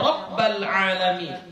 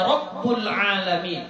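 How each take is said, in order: First: The vowel after the b is a. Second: The vowel after the b is u. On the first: "dibacanya Rabbal alamin" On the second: "atau dibacanya Rabbul alamin"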